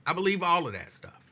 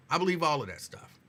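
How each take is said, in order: Both takes have the same delivery.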